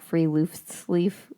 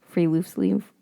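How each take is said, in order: First: Free loose sleeve said slowly, rising like a question; sheepish made-up English reading of free loose sleeve; anglicized guess. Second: Free loose sleeve repeated at normal pace with a rise; casual second try at free loose sleeve; quick repeat. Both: Shown as a demonstration. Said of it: "been saying".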